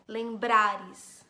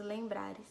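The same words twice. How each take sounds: First: "Lembrares" with BRA punched loud and long; stress on BRA. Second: Said in the usual way. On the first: Shown as a demonstration. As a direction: hit the middle syllable of "Lembrares" hard. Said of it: "Forte é o brá". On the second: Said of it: "qual que é a sílaba mais forte".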